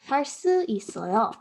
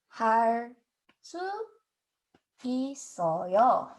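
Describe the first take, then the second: First: It is said at normal speed. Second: It is said slowly.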